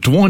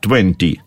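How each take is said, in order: First: The word is shortened, with the t dropped. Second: The word is said fully with a clear t. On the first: "Сокращают даже" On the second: "по-английски 20"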